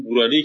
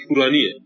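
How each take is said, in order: First: "بورانی" with a voiced b. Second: "پورانیه" with a crisp p. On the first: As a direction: start "بورانی" on b, the Arabicized form. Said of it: "پوران در عربی شده بوران". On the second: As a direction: start "پورانیه" on p, the Persian original. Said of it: "این بورانی پورانیه". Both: Shown as a demonstration.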